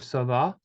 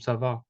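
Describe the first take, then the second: First: The pitch rises at the end. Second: The pitch falls at the end. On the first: It asks a question. "the tone that is kind of uh, going up" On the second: It makes a statement. "which is very different from"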